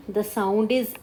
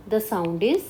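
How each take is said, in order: Both takes have the same delivery.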